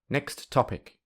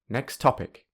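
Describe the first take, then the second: First: Both t sounds are said clearly. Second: The t at the end of next is dropped. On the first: "if you say the two words with very clear sounds" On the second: "there is no t at the end of next"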